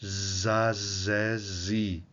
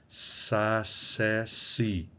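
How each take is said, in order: First: "Za, zé, zi" with a long buzzing Z; "Za, zé, zi" linked by continuous buzzing; voiced Z. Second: "sa, sé, si" with a long unvoiced hiss on each S; "sa, sé, si" slowly, crisp voiceless S. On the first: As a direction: keep the voice running through each Z. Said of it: "vai virar Z". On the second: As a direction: separate "sa, sé, si", voice off during each S. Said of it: "essas consoantes surdas se transformam em sonoras". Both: Shown as a demonstration.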